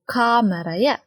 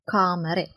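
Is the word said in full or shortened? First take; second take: full; shortened. First: The word is said in full, ending in -aya. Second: The word is shortened, ending in -e.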